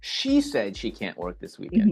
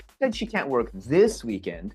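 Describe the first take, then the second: First: The stress is on the first word, she. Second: The stress is on the words this weekend.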